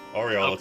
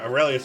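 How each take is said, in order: First: The name ends with an '-olus' sound. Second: The name ends with a '-lius' sound. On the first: This is the correct form of the name. The speaker calls it right. "Aureolus is correct" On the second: This is how others said the name. The speaker calls it wrong. "Aurelius was the one they say"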